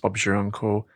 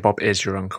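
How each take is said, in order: First: The verb is contracted into Bob's. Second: The verb is said in full as Bob is. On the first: The speaker calls it right. "And it's Bob's" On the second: The speaker calls it wrong. "Don't say Bob is your uncle"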